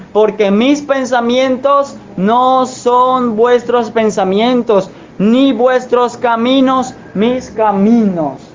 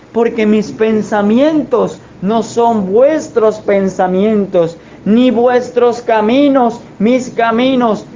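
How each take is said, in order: Both takes have the same delivery.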